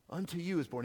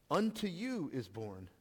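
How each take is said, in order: First: Unto you is born, weight on you; stress on you. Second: Unto you is born, slow with weight on Unto; slow emphasis. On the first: Preacher stresses that the news is for the shepherds, lean on you. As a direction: hit the word you. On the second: Preacher repeats the angel's words to the congregation, slow and weighty. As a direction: lean on Unto, slowly. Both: Shown as a demonstration.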